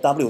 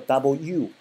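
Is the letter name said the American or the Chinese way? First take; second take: Chinese; American. First: It is said the common Chinese way. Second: It is said with an American accent. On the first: "咱管叫w" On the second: "美音里面其实叫w"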